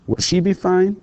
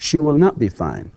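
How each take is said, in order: First: Will she be fine lifted high on be; teacher's rising question; question rise. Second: Not leaned on in She will not be fine; teacher's negative; stress on not. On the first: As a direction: make it a clear question. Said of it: "question drill". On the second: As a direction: punch not, then fall. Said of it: "negative drill". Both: Shown as a demonstration.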